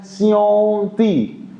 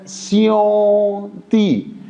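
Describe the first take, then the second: First: स्योंती said slowly in Chinese tones; Chinese pronunciation demo. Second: स्योंती drawn out slowly, Chinese tones; teacher models स्योंती very slowly; slow Chinese model word. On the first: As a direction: model स्योंती carefully for students. (चीनी उच्चारण में स्योंती धीरे से) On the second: (स्योंती बहुत धीरे, चीनी tone में) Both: Shown as a demonstration. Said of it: "तो इसका प्रोनाउंसिएशन".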